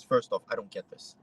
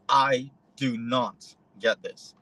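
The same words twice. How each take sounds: First: Said in the usual way. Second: "I do not get this" spelled out slowly, each word weighted; slow, deliberate insistence on "do not"; slow emphatic denial. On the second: Retold or imitated. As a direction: stress "do not" and drag the line out. Retold protest, repeated.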